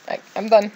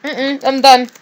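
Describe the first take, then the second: First: Said in the usual way. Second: Higher, louder, strained I'm done; real choked-up I'm done. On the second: Real, not acted. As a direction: push the words out through emotion.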